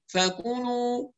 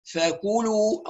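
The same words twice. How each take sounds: First: "فكلوا" through the nose, slowly, "fakuunuu"; nasalised vowels. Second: "فكلوا" slowly, sound kept out of the nose; clear non-nasal vowels. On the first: Teacher imitates a frequent mistake, nasalised vowels. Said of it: "نطق الحروف المضمومة من الخيشوم". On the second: Teacher models for students, clear non-nasal vowels. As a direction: round the u of "فكلوا" purely through the mouth. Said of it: "نصفي الصوت من الخيشمة". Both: Shown as a demonstration.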